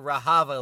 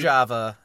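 First: The j is a Spanish-style h sound. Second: The j is a French-style zh sound. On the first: The speaker calls it wrong. "I was pronouncing it Rojava like it was Spanish" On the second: The speaker calls it right. "pronounced in a French fashion"

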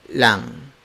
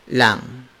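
The two takes are said the same way.

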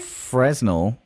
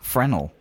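First: The S in the middle is pronounced. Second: The S in the middle is silent. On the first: The speaker calls it wrong. "I even pronounced the S in reading this question out" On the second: The speaker calls it right. "you don't pronounce the S"

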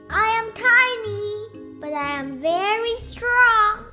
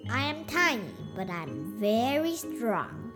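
First: It is said loudly. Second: It is said quietly.

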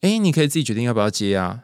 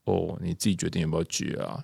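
First: It is said in a cheerful, happy tone. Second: It is said low and somewhat jealous.

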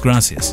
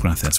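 First: The middle consonant is an 's' sound. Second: The middle consonant is a 'th' sound. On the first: "Unless you're in Argentina. And then it's gracias" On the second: "With the T and H, isn't it?"

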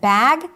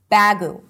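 First: The word ends on the 'g' with no vowel after it. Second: The word ends with an added 'u' vowel after the 'g'. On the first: The speaker calls it right. "Instead of bag" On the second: The speaker calls it wrong. "This might create confusion"

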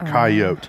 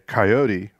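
First: The final e is silent after a long o. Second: The final e is pronounced as a syllable. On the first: It is the English-style reading of the word. "that E would be silent and make the O a hard O sound" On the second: It is closer to the Spanish original. "which is where we're pronouncing that E"

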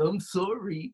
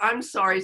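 First: It sounds sincere and heartfelt. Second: It sounds grudging and perfunctory.

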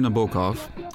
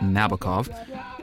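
First: The name is said in its original pronunciation. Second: The name is said in the usual American pronunciation.

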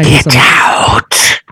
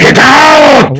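First: The demonic voice is soft and restrained. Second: The demonic voice is very loud and forceful. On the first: The speaker calls it wrong. "I guess that was more like a" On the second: The speaker calls it right. "I'd say that was better. ... I think all of our listeners are deaf now too"

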